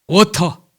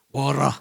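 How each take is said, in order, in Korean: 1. 가운데 자음은 분명한 t 소리입니다. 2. 가운데 자음은 부드럽게 튀기는 r 같은 소리입니다. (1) "우리 때는 뭐예요? 워터, 물 넣으면 워터 이렇게 배웠지" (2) "워러 이렇게 하면 이 자식 뭐 그냥 혀를 꼬부리고 그래요"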